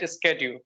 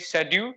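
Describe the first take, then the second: First: The word is pronounced the American way. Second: The word is pronounced the British way. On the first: "according to American English they call it schedule" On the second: "according to British English it is right"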